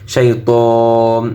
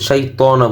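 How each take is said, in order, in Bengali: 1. শব্দটি 'ন' দিয়ে শেষ হয়, কোনো স্বরধ্বনি ছাড়া। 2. শব্দটি ছোট 'a' স্বরধ্বনি দিয়ে শেষ হয়। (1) "যে সময় অক্ফ করছি তখন কিন্তু শাইতান জবর উচ্চারণ হয়নি" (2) "পড়ার সময় কিন্তু শাইতানা বলছি"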